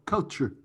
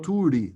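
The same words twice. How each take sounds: First: The u is a short vowel sound. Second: The u sounds like the letter name 'you'. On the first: The speaker calls it right. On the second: The speaker calls it wrong. "We don't say"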